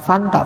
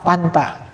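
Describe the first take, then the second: First: The word begins with an f sound. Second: The word begins with a p sound. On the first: "Bukan fanta" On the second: "kebiasaan Sunda banget"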